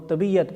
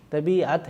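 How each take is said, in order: First: طبیعت said as tabiyat; common wrong pronunciation. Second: طبیعت said as tabi-at, with the ain; correct pronunciation. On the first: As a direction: say طبیعت with a y in the middle. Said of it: "طبیعت نہیں ہے". (طبیعت کا غلط عام تلفظ) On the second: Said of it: "طبیعت ہے لفظ". (طبیعت کا درست تلفظ) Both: Shown as a demonstration.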